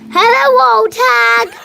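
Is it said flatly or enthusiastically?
enthusiastically. It is said with lots of enthusiasm.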